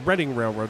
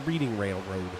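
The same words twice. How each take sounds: First: Reading has a short vowel, like 'redding'. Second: Reading has a long vowel, like 'reeding'. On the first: The speaker calls it right. "that's that's the Reading Railroad" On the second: The speaker calls it wrong. "not the Reading Railroad"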